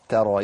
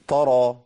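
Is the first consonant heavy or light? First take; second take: light; heavy. First: The first consonant is light and thin. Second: The first consonant is heavy and emphatic. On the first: The speaker calls it right. "يبقى ترقيق التاء مع الراء" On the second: The speaker calls it wrong. "من الاخطاء اللي بسمعها طرى"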